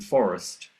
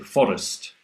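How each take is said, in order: First: The r is a smooth English r. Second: The r is a quick tapped flap. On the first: The speaker calls it right. "the r sound in forest" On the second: The speaker calls it wrong. "they say forest with a flap"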